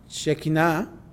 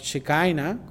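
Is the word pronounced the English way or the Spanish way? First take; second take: Spanish; English. First: The word is pronounced with Spanish sounds. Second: The word is pronounced with English sounds.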